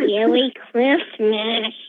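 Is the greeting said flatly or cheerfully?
flatly. It is said in a flat, plain way.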